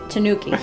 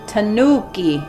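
First: All syllables are even in length and stress. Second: One syllable is stressed more than the others. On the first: The speaker calls it right. "You just say tanuki" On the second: The speaker calls it wrong. "You don't say like tanuki"

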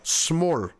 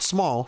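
First: The word is said in a put-on accent. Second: The word is said in a plain accent. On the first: "Makes you say it with an accent" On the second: "Not small"

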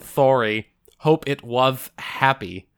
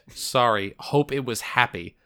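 First: It is said with a cartoonish lisp. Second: It is said in a plain voice, no lisp.

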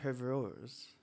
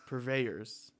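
First: The word is said in a put-on accent. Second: The word is said in a plain accent. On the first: The speaker calls it wrong. "I mispronounced it trying to give it an accent" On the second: The speaker calls it right. "That's the word"

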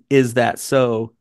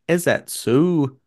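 First: It is said in a plain, standard accent. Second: It is said in a strong regional dialect accent. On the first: "instead of saying" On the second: "He said"

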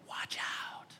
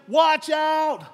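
First: It is said calmly, without urgency. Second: It is said urgently, like an exclamation.

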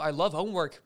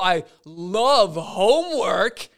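First: It is said in a tone that sounds sincere. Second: It is said in an obviously sarcastic tone. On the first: It is unclear whether the speaker means it. "do you actually like homework? I don't know" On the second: The speaker does not really love homework. "then I'm like, oh, that's sarcastic"

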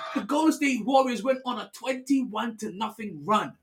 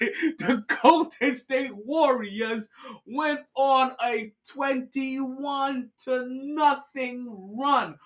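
First: It is said at normal speed. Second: It is said slowly and deliberately.

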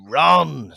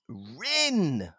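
First: The name has an 'o' vowel. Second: The name has an 'i' vowel. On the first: The speaker calls it right. "found out it's actually Ron" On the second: The speaker calls it wrong. "I always used to pronounce it as Rin"

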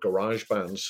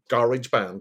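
First: It is said in an American accent. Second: It is said in a British accent.

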